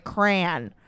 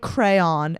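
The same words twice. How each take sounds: First: "crayon" squeezed to one syllable, cran; crayon said the other way. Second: "crayon" with two syllables, cray-on, long ay; crayon said one way. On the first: Vlogger demoing her second version of "crayon" as one clipped syllable. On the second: Vlogger demoing her first version of "crayon" with two syllables. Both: Shown as a demonstration. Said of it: "neither of the versions of the word crayon".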